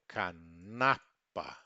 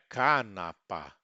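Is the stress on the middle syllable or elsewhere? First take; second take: middle; elsewhere. First: The stress is on the middle syllable. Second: The stress is not on the middle syllable. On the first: The speaker calls it right. "sempre paroxítono" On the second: The speaker calls it wrong. "Não é canapa"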